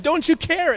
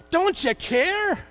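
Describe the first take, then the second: First: Pleading cry. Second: High, slow, drawn-out plea; slow despairing plea. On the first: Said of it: "They said". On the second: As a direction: stretch it out in despair. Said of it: "it says in one of the Gospels". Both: Retold or imitated.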